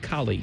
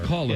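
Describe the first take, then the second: First: The second syllable ends in an 'ee' sound. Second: The second syllable ends in an 'uh' sound. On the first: This is the speaker's own way of saying it. "I say cauli" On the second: This is how the others say it. "You guys are call"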